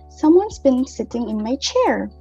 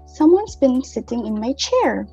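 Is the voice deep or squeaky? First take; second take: deep; deep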